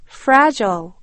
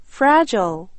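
The two takes are said the same way.

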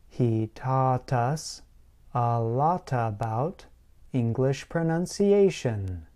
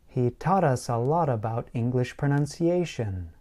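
First: The sentence is said at a slow pace. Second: The sentence is said at a fast pace. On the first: "Start slowly, like this" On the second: "Then, slowly speed up"

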